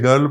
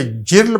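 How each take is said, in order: First: Put-on گرل said with a hard g, like girl; correct hard g. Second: جرل said with a soft j sound; wrong soft g. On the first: Teacher gives the real reading, hard g. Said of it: "گرل پڑھتے ہیں". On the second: Teacher shows the rule-based reading, soft j. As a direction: read جرل as jirl. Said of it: "اسے جرل پڑھنا چاہیے تھا". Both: Shown as a demonstration.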